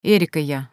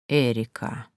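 First: Said in the usual way. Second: Low, soft, lingering name; drawn-out, savouring. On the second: A narrator's reading. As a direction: draw Эрика out low, as if tasting it. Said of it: "протянул он, будто пробуя имя на вкус". (протяжно и низко, пробуя имя на вкус)

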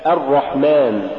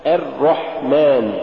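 First: الرحمن with a dark a leading into a thick R; heavy doubled R. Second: الرحمن drawn out slowly as er-rahman; thinned first R. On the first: Tajweed teacher giving the example, heavy doubled R. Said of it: "مثال". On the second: Tajweed teacher showing the mistaken reading, thinned first R. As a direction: lighten the first half of the R in الرحمن. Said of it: "تقرأ لحنا". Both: Shown as a demonstration.

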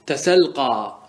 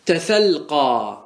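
First: Said in the usual way. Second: تسلقى stretched out very slowly, each syllable held; slow demo. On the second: Shown as a demonstration. Teacher modelling the example for students, very slowly. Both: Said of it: "مثال ذلك".

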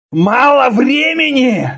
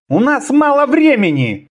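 First: Slow, high furious shout; growled roar. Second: High-pitched, pressing menace; threatening. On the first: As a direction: roar it back in outrage. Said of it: "зарычал Конан". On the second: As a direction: warn with a threat in it. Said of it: "с угрозой произнёс". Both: A narrator's reading.

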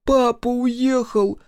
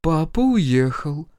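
First: Put-on very high, slow wailing child; through tears. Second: Slow, drawn-out, higher answer; strange, alien voice. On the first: Микки tells sister about father, through tears. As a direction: squeeze it out tearfully, drawn out. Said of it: "сквозь слёзы выдавил Микки". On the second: Mother answers son, in an alien voice. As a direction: answer slowly in someone else's voice. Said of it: "ответила мама чужим голосом". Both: A narrator's reading.

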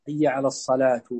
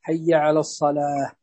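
First: الصلاة ending in a sounded "tu"; taa voiced with damma. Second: Said in the usual way. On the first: Shown as a demonstration. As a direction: finish الصلاة on "-tu" instead of a silent h. (نطق "الصلاة" بضم التاء المربوطة) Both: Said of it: "فضم التاء المربوطة هنا".

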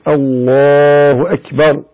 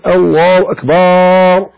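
First: أكبر said short and clean, slowly; slow, correct الله أكبر; correct takbir. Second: أكبر with the ba stretched into a long baa; slow mock muezzin drawl on أكبر; wrong drawn-out takbir. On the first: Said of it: "ويقول". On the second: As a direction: drag out the ba in أكبر like a careless muezzin. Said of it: "فلا يقول". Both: Shown as a demonstration.

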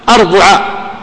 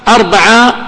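First: أربعة said arbu'a, with a u after the b; damma on the middle letter. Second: أربعة said arba'a, with an a after the b; fatha on the middle letter. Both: Shown as a demonstration. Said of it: "تثلث العين".

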